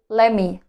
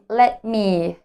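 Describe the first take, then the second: First: The words are reduced and run together. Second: Both words are said fully and separately. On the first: "say let me" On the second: "instead of saying let me"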